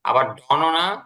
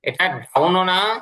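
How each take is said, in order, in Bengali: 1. স্বরটা সাধারণ গোলাকার 'o'। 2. স্বরটা 'ow'-এর মতো একটা গ্লাইড।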